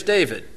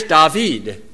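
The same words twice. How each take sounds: First: Said in the usual way. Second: David said the Spanish way, dah-VEED; David with Spanish vowels and stress on the end. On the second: Shown as a demonstration. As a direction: say David as a Spanish speaker would. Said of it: "my name in Spanish".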